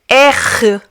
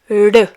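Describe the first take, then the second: First: The R is a strong, harsh sound. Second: The R is a light, vibrating sound. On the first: "sharp, like the one you just heard" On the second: "or vibrant"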